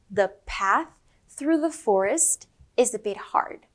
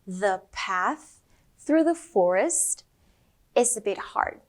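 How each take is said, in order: First: It is said at normal speed. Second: It is said a little more slowly.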